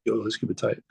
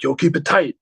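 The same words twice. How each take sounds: First: Said in the usual way. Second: Higher, lightly voiced pep-talk from the drummer; a hint of a hyped-up drummer psyching the band; lightly mimicked drummer, pitched up; imitating the drummer. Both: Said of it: "He's like".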